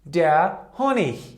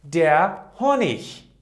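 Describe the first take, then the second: The two takes are said the same way.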